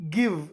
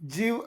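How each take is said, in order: First: The word starts with a hard g sound. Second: The word starts with a j sound. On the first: The speaker calls it right. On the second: The speaker calls it wrong. "ಜಿವ್ ಅಲ್ಲ"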